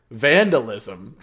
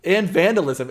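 First: "vandalism" stretched slowly and firmly, rising at the end; drawn-out vandalism. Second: "and vandalism" said louder and higher, "vandalism" hit hard; stressed and vandalism. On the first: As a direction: lean on every syllable of "vandalism". Repeating point for emphasis. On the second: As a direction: punch out "and vandalism" with force. Insisting over co-host. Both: Real, not acted.

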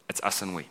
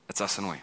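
The two takes are said the same way.

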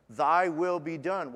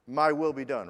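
First: "Thy" leaned on, slow and deliberate; slow it down and land on "Thy"; stress on THY. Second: "My" pushed out louder, a wrong prayer; stress on MY. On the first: Preacher giving the correct prayer, weighted on "Thy". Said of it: "Why do we pray that?". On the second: Preacher quoting the selfish version, stress on "My". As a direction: hit "My" hard as the selfish version. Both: Shown as a demonstration.

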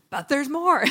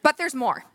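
First: Upbeat pitchman announcing; infomercial voice. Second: Infomercial voice. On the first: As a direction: sell it like a TV ad. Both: Pretend. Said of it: "sound like an infomercial".

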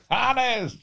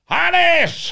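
First: Repeating her high call across the yard. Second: Shrill call across the yard, much higher and louder; woman guard yelling his name from a distance. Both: Retold or imitated. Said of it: "hat sie immer gerufen".

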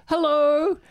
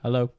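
First: A much higher, louder cheery hello; Taylor Lautner's hello. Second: A flat, offhand hello in the usual pitch; unimpressed sister. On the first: Actor popping into the FaceTime call, loud cheery hello. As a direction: pop in with celebrity charm. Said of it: "popped in and goes". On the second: Sister flatly greeting the star over FaceTime, unimpressed hello. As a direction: greet the star as if he's nobody. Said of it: "and she's like". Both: Retold or imitated.

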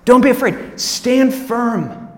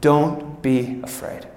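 First: Firm command. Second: Gentle reassurance. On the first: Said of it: "It's "Don't be afraid". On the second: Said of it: "I love this". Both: Shown as a demonstration.

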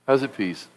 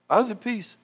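First: Lower, much softer, settled and sure; quiet calm. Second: Higher, much softer, calm and easy; calm at peace. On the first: Preacher repeating his calm to the church, low and soft. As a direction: let it sink, quiet and certain. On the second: Preacher telling the church of his calm, high soft voice. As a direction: say it softly like a sigh of relief. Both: Shown as a demonstration.

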